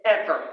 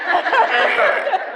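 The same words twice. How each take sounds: First: Said in the usual way. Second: Ever said louder and higher with a laugh; emphatic ever. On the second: Retold or imitated. Telling the women she is never quiet, laughing emphasis. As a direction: repeat Ever with a laughing punch. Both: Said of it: "And I'm not quiet".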